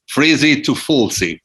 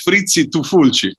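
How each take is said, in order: First: It is pronounced the English way. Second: It is pronounced the Italian way. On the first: "I say it in, in English in an English way" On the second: "usually as"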